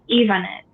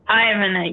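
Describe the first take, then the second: First: The name begins with an 'ee' sound. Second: The name begins with an 'eye' sound. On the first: It is said the way the speaker's parents gave it. "the letter I in Spanish is E. It's pronounced E" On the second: It is read the way an English reader sees the letter.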